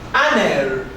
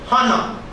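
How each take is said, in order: First: The word begins without an H sound. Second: The word begins with an audible H sound. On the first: The speaker calls it right. "Please note that the H sound is silent" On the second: The speaker calls it wrong. "and not"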